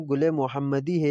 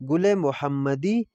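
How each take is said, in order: First: Said in the usual way. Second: Slow pronunciation demo. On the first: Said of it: "اس کو ہم گل محمدی ہے لگائیں گے". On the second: Shown as a demonstration. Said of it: "اس کا نام ہے تو اس کو ہم گل محمدی".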